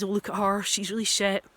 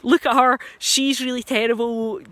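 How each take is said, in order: First: Mock sneer. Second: Louder, higher mocking jeer; mock scorn. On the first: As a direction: sneer at her under your breath. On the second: Imagined critic jeering to friends, hammed-up and louder. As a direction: jeer at her for the whole room to hear. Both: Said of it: "say to their friends".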